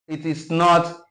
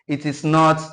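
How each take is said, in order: Both takes have the same delivery.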